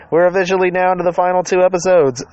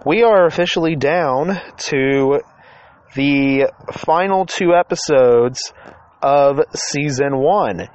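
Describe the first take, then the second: First: Higher, excited repeat. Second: Slow, drawn-out announcement. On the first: Real, not acted. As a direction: lift it up with excitement. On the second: Acted. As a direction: stretch each word out slowly. Announcing the season finale.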